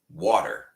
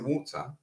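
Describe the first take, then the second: First: The final R sound is clearly pronounced. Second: The final R sound is dropped. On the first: "I will really clearly pronounce the R" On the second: "they will not pronounce the R"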